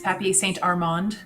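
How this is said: The name is said with an English accent.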